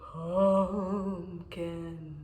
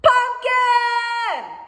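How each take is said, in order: First: It is said in a spooky ghost voice. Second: It is said very loudly, almost shouted. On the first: "in a ghost voice" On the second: "really, really loud"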